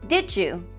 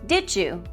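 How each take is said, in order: First: The sounds between the words blend into one. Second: The same.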